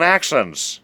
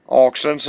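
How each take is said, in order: First: "accents" with an open first vowel, as in "axe"; "accents" with the usual short a; standard pronunciation. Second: "accents" with a rounded first vowel, like "oxents"; "accents" the squirrelly local way; regional pronunciation. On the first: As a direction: say "accents" as "axents". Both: Shown as a demonstration. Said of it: "Talking of accents".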